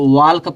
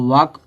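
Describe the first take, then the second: First: The L sound is pronounced in the word. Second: The L sound is silent in the word. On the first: The speaker calls it wrong. "बहुत लोग इसको वाल का पढ़ते हैं" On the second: The speaker calls it right. "तो इसको वाक पढ़ेंगे"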